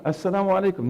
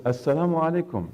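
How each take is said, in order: First: Called out higher, a last insistent salaam; third greeting. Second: Calling the greeting at the door; a first, higher salaam at the door. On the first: Prophet greets the silent household a third time, calling higher. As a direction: raise it once more, pressing for an answer. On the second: Prophet greets the household at the door, first call, raised voice. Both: Retold or imitated.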